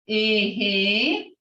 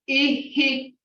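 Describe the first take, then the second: First: The word is said longer. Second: The word is said short. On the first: It means yes. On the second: It means her husband.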